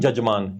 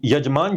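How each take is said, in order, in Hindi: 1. यह शब्द 'j' ध्वनि से शुरू होता है। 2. यह शब्द 'y' ध्वनि से शुरू होता है। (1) "य को प्रोनाउंस वैदिक संस्कृत में जजमान किया जाता है" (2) "संस्कृत में य को ज बोला जाता है"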